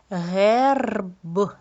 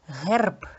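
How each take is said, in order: First: "герб" stretched out with a long trilled R; slow, segmented "герб" for sound analysis; sound-by-sound demo. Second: Said in the usual way. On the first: Shown as a demonstration. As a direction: draw out "герб", releasing the final "б" separately. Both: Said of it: "зробимо звуковий аналіз слів".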